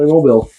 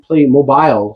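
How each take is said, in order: First: The final syllable sounds like 'bill'. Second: The final syllable sounds like 'bile'. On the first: The speaker calls it right. "It should be Playmobil" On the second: The speaker calls it wrong. "some people pronounce it ... shouldn't be Playmobile"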